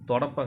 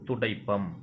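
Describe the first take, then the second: First: It is said in the colloquial pronunciation. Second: It is said in the formal pronunciation. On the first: The speaker calls it wrong. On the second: The speaker calls it right.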